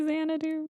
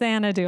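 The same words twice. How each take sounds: First: It is said very quietly. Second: It is said loudly.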